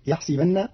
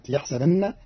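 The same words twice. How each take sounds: First: "يحسبن" said yahsibanna; kasra on the seen. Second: Said in the usual way. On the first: Shown as a demonstration. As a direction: give the seen in "يحسبن" an i, not an a. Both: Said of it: "بكسر السين".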